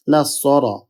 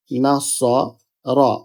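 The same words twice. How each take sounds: First: Said in the usual way. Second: Slow নাস-স, pause, then রা; broken into syllables. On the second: Shown as a demonstration. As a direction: draw out নাসরা in separate parts. (নাস... রা: ধীরে ভেঙে ভেঙে) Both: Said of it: "প্রথম হরফের সাথে এটা মিলিত হবে".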